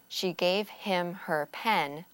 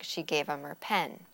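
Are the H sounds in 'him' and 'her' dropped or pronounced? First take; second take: pronounced; dropped. First: The H sounds in him and her are pronounced. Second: The H sounds in him and her are dropped.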